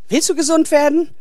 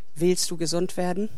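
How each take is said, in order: First: The question sounds reproachful and accusing. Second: The question sounds gentle and compassionate. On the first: The asker suspects the man prefers lying around lazily. The speaker calls it wrong. "Er hat nicht gesagt, und, willst du gesund werden? So nach dem Motto, willst du überhaupt gesund werden oder willst du hier länger faul rumliegen" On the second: The asker is moved by the man's suffering. The speaker calls it right. "Jesus hat Mitleid, ist im Herzen berührt vom Schicksal dieses Mannes und darum fragt er so"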